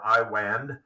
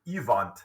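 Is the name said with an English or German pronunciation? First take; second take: English; German. First: The name is read the English way. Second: The name is said the German way. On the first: "kind of looks like Iwand" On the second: "he would have pronounced it Ivant uh, as a, a good German boy"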